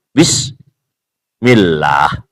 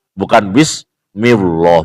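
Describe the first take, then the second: First: Bismillah slow, with a heavy dark L like bismilloh; correct bismillah. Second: Bismillah with a light, thin L, the wrong way. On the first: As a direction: draw out Bismillah the proper way. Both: Shown as a demonstration.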